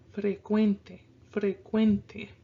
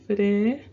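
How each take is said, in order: First: "frecuente" run together as one word; connected "frecuente", stressed on cuen; flowy. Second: "frecuente" in separate beats, fre, cuen, te; long pauses between the syllables of "frecuente"; broken into syllables. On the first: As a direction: let fre-cuen-te flow without breaks. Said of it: "we're gonna loop our voice". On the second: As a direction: sound out fre-cuen-te one syllable at a time. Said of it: "syllables would like to be broken up". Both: Shown as a demonstration.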